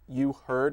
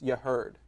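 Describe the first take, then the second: First: The two words are said separately. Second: The two words run together as one.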